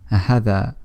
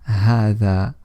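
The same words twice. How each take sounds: First: The vowel after the first consonant is short. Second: The vowel after the first consonant is long. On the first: The speaker calls it wrong. "we don't say هذا, shortening the ha" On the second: The speaker calls it right. "it's pronounced as if there is an alif after the letter ha, so we say"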